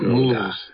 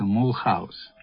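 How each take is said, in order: First: The name is said the local way. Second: The name is read letter by letter as spelled. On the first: This is how locals actually say it. "Произносится у них Мюльхаус" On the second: This is how the written form reads. "если его читать, то называется Мулхаус"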